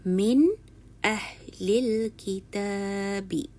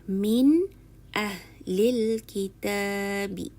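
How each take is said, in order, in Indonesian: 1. Bunyi n diucapkan dengan jelas dan tegas. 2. Bunyi n diucapkan dengan jelas dan tegas.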